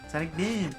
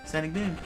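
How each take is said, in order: The two takes are said the same way.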